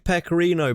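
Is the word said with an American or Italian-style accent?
American. It is said with a plain American pronunciation. The speaker says it the way they normally talk. The speaker calls it right. "because you're talking in an American accent"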